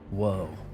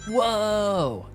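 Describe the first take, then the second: First: The voice sounds older and heavier. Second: The voice sounds young and bright. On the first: "he whoa's different old" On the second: "There's a young Keanu"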